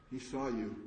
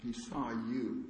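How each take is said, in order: First: Said in the usual way. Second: Saw stretched out slowly; slow emphasis. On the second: Shown as a demonstration. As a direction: lean on saw, slower.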